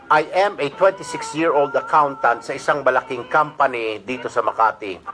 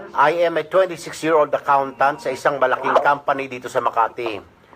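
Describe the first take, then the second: Both takes have the same delivery.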